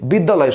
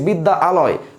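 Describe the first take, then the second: First: It is said smoothly in one go. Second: It is split into two parts with a break. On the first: The speaker calls it right. "সহজ লাগছে" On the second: The speaker calls it wrong. "বলতে কঠিন লাগছে"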